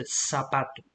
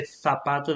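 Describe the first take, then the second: First: "zapato" with its Z said as S; hissed S opening "zapato", no TH; Latin American S. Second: "zapato" with its Z said as TH; lisped first consonant in "zapato"; Castilian TH. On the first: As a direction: say "zapato" starting like "sapato". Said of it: "they would say zapato". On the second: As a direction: say "zapato" starting like English thunder. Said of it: "in Latin America, they would never say". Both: Shown as a demonstration.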